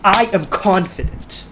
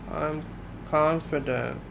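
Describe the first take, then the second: First: It is said loudly and with great force. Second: It is said weakly, without conviction. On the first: The speaker fully believes it. The speaker calls it right. "add so much power and shock your system awake" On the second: The speaker does not really believe it. The speaker calls it wrong. "you don't seem to believe it"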